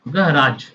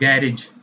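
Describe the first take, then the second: First: It is said in an American accent. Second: It is said in a British accent. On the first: "American English में बोलेंगे" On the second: "British में हम लोग इसको बोलते हैं"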